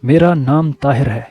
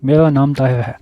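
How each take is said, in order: First: The r sound in the name is clear. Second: The r sound in the name is unclear. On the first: The speaker calls it right. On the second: The speaker calls it wrong.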